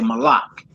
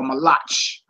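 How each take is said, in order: First: The word ends in a hard k sound. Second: The word ends in a throaty ch sound. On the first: The speaker calls it right. "They say malak" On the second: The speaker calls it wrong. "Don't nobody say um um malech or malach"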